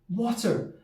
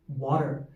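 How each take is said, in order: First: It is said in a Glasgow accent, stronger t. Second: It is said in a standard American accent. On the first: "someone from Glasgow like me, they pronounce more of the T" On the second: "standard American accent, they might say water"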